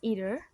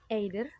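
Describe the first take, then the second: First: The word is said with a standard pronunciation. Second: The word is said with a learner's mispronunciation. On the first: The speaker calls it right. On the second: The speaker calls it wrong.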